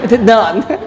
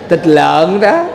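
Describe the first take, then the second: First: The second word begins with an n sound. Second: The second word begins with an l sound. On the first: It imitates how someone else said it. "sư cô nói là thịt nợn đó" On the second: It gives the standard form of the word. "Thịt lợn là thịt heo đó"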